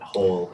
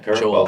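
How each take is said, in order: First: The name begins with an H sound. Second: The name begins with a J sound. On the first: The speaker calls it wrong. "It's not Whole Jimenez. I've gotten that too" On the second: The speaker calls it right. "my first name I pronounced the J"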